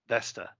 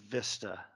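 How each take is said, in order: First: The first vowel sounds like the 'e' in 'vest'. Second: The first vowel sounds like the 'i' in 'vista'. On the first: The speaker calls it right. "It's Vesta, not Vista" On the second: The speaker calls it wrong. "We said it wrong all these years"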